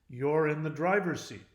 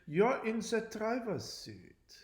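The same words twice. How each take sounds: First: It is said in a plain, everyday accent. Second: It is said in an exaggerated German accent. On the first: "I read this in English" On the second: "Nazi person here who talks like this"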